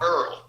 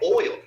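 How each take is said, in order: First: It is said like 'Earl', New Orleans style. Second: It is said with a standard 'oil' vowel.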